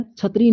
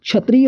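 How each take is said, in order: First: क्षत्रिय said as chhatriya with a ch sound; क्षत्रिय with ch instead of ksh; wrong form. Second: क्षत्रिय with a clear ksh cluster; क्षत्रिय spoken kshatriya, not chhatriya; correct form. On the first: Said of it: "क्षत्रिय नहीं". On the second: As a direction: say क्षत्रिय as k-sh-atriya. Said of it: "क्षत्रिय होता है". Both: Shown as a demonstration.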